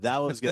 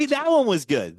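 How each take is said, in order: First: Said in the usual way. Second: Excited. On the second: Real, not acted. Praising the last segment.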